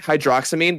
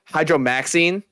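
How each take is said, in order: First: The middle is said as 'drox-a'. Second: The middle is said as 'dro-max'. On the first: The speaker calls it right. "like if it's like hydroxamine" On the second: The speaker calls it wrong. "they go hydromaxine"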